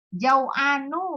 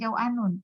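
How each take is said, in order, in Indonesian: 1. Kata ini berakhir dengan bunyi -u saja. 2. Kata ini berakhir dengan bunyi -un.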